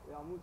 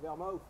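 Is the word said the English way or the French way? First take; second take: French; English. First: The word is pronounced the French way. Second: The word is pronounced the English way.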